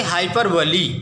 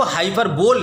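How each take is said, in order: First: "हाइपरबोली" with a final ee sound; correct hyperbole pronunciation. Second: "हाइपरबोल" ending in a bare "bol", no final ee; mispronounced hyperbole. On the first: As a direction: end "हाइपरबोली" on "lee", not on "bol". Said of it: "ध्यान देंगे हाइपरबोली". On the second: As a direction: read "हाइपरबोल" as it is spelt, ending like "bowl". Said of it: "इसको हाइपरबोल नहीं पढ़ेंगे आप". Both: Shown as a demonstration.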